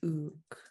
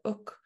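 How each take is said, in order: First: The vowel is long with a low tone. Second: The vowel is short with a high tone.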